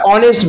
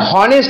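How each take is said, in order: First: The word begins with a vowel sound. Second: The word begins with an h sound. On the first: The speaker calls it right. "আমরা অনেস্ট বলি" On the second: The speaker calls it wrong. "হনেস্ট না বলে"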